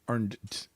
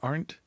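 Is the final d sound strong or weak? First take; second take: strong; weak. First: The final d is said with strong emphasis. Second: The final d is said lightly. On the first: "do I put more emphasis on the d?" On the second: "Is it Arndt"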